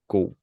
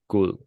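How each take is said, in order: First: The word is pronounced quickly and reduced. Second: The word is pronounced in full, carefully. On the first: The speaker calls it right. "I just say god when we speak fast" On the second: The speaker calls it wrong. "I don't say god"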